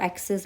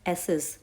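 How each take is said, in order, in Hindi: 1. "c" को k की आवाज़ के रूप में बोला जाता है। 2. "c" साइलेंट है, इसमें k की कोई आवाज़ नहीं है। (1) "इसको एक्सेस मत पढ़ना" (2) "सी जो है यहाँ पे साइलेंट है, सो इट्स एसेस"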